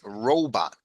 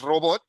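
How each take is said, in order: First: It is said with English vowel sounds. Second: It is said with Spanish vowel sounds. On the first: The speaker calls it right. "Okay, it's robot" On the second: The speaker calls it wrong. "No es, no es robot"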